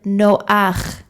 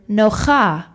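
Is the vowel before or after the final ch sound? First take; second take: before; after. First: The ah vowel comes before the ch sound. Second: The ah vowel comes after the ch sound. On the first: The speaker calls it right. "We pronounce the word noach" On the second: The speaker calls it wrong. "we don't pronounce the word nocha"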